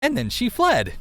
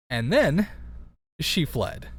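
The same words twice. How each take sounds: First: "And then she fled" pitched up, a bit louder, sing-song; odd read. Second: Said in the usual way. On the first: Shown as a demonstration. Reader reads the line in a strange, lilting way. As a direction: read "fled" high and dramatic, by accident. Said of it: "I don't know why I read it like that".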